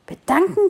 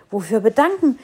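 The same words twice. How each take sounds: First: "Bedanken?" high, rising, incredulous; disbelieving echo. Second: "bedanken" stressed, falling firmly. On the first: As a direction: throw the word back in disbelief. Tree echoes sparrow in disbelief. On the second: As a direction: lean hard on "bedanken", falling. Tree repeats word, falling. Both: A narrator's reading.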